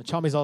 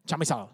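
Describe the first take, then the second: First: Said in the usual way. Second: "Chamizal" softly, in an attempted Spanish accent; amateur Spanish pronunciation of "Chamizal"; careful Spanish accent. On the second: Shown as a demonstration. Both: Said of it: "I always gotta say it just right".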